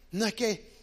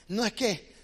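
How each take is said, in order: Both takes have the same delivery.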